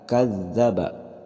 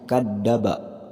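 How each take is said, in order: First: The middle consonant sounds like a z. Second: The middle consonant sounds like a d. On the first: The speaker calls it right. "harusnya za" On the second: The speaker calls it wrong. "jangan sampai membacanya kadzdzaba. Jadi huruf da"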